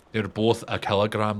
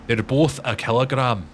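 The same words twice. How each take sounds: First: Put-on understated Scottish accent at everyday pitch; light mock-Scots, patiently stated; lightly put-on Scottish correction. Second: Insistent Scottish correction; mock-Scottish, leaning on "both"; Limmy. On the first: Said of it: "is just quoting Limmy". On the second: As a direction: correct them in a put-on Scots accent. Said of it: "quoting a Limmy show".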